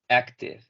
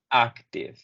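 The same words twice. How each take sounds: First: The first vowel is a weak 'uh' sound. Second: The first vowel is a full 'a' sound. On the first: The speaker calls it right. "que suena como uh" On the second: The speaker calls it wrong. "Y no tanto como"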